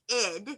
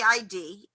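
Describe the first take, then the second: First: It is spoken as one short word. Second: It is spoken as two separate letters. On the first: The speaker calls it right. "It is the id" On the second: The speaker calls it wrong. "It is not the I D"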